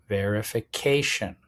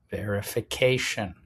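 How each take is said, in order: Both takes have the same delivery.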